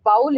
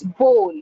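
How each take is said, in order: First: "bowl" as BAUL, rising; "bowl" with an OW vowel; wrong pronunciation. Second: "bowl" as BOHL; long O in "bowl"; correct pronunciation. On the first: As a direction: rhyme "bowl" with howl. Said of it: "it's not bowl". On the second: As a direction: say "bowl" to rhyme with hole. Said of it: "It's bowl". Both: Shown as a demonstration.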